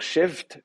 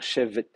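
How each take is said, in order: First: Chevt ending in two consonants, v straight into t; chevt, closed on a bare vt cluster; chevt as one syllable. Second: Chevet in two syllables, a short e between v and t; chevet, the vt cluster opened by a little vowel; chevet with helping vowel. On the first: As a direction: say chevt with no vowel between v and t. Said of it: "au lieu de dire chevt". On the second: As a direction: say chevet with a small unstressed e before the final t. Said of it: "on va dire chevet, un petit, une petite voyelle entre les deux". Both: Shown as a demonstration.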